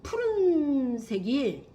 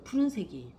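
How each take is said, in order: First: 푸른색이 stretched very slowly and higher, falling off at the end; slow, savoring 푸른색이; drawn-out emphasis. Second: Said in the usual way. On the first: Shown as a demonstration. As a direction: linger on 푸른색이, syllable by syllable. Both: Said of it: "푸른색이 (repeated)".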